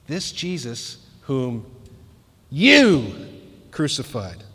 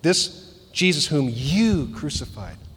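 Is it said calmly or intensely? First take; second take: intensely; calmly. First: It is said with strong intensity. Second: It is said with milder intensity.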